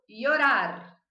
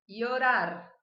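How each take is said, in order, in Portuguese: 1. O ll é falado como um som de i. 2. O ll é falado como um som de i.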